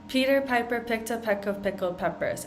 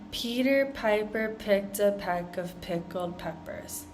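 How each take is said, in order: First: It is said at a fast pace. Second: It is said at a slow pace. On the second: "going through it slowly"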